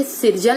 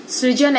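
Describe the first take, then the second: First: सृजन said as "sirjan", with an i before the r; wrong vowel inserted. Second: सृजन said as "srijan", with r right after s; correct ri sound. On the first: Teacher showing students the mistake, "sirjan". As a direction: say सृजन as "sir-jan". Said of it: "लिख दिए तो गलत". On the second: Teacher showing students the right pronunciation, "srijan". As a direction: say सृजन as "sri-jan". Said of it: "ऐसे सही है". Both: Shown as a demonstration.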